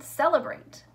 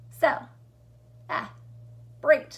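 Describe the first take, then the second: First: Said in the usual way. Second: "Cel, ah, break" as three loud, separate beats; chunked into syllables. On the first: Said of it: "how the word is chunked out". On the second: Shown as a demonstration. Teacher showing how celebrate splits, "Cel, ah, break" chunked out. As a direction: pause fully after each piece of "Cel, ah, break". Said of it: "that's how the word is chunked out".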